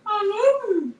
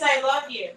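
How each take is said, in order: First: Very high, crooning doggy voice; talking dog. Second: Somewhat high doggy quote; talking dog. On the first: Owner showing how her dog talks, high doggy croon. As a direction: howl the words like a dog, way up high. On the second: Owner quoting her dog, lightly voiced doggy words. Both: Retold or imitated. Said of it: "He says".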